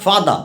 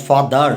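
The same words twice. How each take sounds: First: Father ending on an open "a", no R; father, non-rhotic ending; R dropped. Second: Father with the final R sounded; father, rhotic ending held out; wrong form with R. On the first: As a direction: say father with the final R silent. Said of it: "রায়ের উচ্চারণ হবে না". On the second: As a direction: say father closing on a heavy R. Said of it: "not father". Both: Shown as a demonstration.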